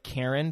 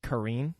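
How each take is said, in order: First: "Karen" said like the English name; spelling pronunciation. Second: "Kareen" with a long ee in the second syllable; alternative pronunciation. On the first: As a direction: say "Karen" with stress on the first syllable. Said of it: "they spell it like Karen". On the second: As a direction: say "Kareen" to rhyme with green. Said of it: "but I think it's". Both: Shown as a demonstration.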